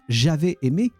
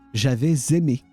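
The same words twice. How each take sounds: First: The words are said without a linking Z sound. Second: A Z sound links the two words together. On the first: The speaker calls it wrong. "It's not" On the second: The speaker calls it right. "like if you put a Z on the, uh, at the start of the, the second word"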